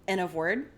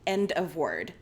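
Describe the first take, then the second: First: The final D sound is dropped. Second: The final D sound is clearly pronounced. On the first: The speaker calls it wrong. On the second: The speaker calls it right.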